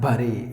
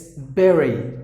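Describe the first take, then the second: First: The first vowel sounds like the one in 'bud'. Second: The first vowel sounds like the one in 'bed'. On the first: The speaker calls it wrong. "please don't do that. Not buddy" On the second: The speaker calls it right. "instead of letter U, you got the letter E"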